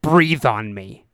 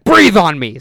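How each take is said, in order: First: Low, drawn-out order; retold cop giving a slow, deliberate order; slow cop command. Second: Louder, forceful repeated order; retold cop losing patience; insistent cop command. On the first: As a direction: say it low and very slowly. Cop orders breath test, first time. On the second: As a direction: push it out loud, as a mock bark. Cop repeats order after being questioned.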